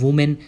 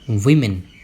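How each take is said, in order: First: The first syllable sounds like 'woo'. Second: The first syllable sounds like 'wih'. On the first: The speaker calls it wrong. "बहुत सारे लोग उसे वुमेन बोलते हैं" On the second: The speaker calls it right. "सही तरीके से pronounce किया जाएगा विमेन"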